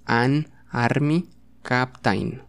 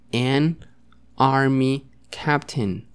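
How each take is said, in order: First: Slow AN ARMY CAPTAIN read as spelled, "ahn armi kap-tain"; wrong Spanish-style reading. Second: Slow AN ARMY CAPTAIN, "en army kap-ten"; English pronunciation. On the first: Teacher showing how it is not said, Spanish-style reading. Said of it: "aunque así no es". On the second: Teacher showing students the correct way, English pronunciation. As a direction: model "an army captain" word by word, ending "-ten". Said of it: "Pero se pronunciaría". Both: Shown as a demonstration.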